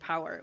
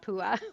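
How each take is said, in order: First: It sounds like the English word 'power'. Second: It sounds like two syllables, 'poo-ah'. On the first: The speaker calls it right. "pronounced like power as in power" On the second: The speaker calls it wrong. "not pua, which is what people"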